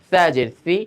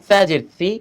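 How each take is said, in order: Both takes have the same delivery.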